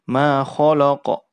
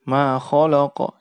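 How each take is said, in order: No difference in how they are said.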